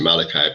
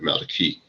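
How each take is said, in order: First: The name is said the commonly used way. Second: The name is said a less common way. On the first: "most people pronounce, well, pronounce it Malachi" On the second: "but Malachi, which means my messenger"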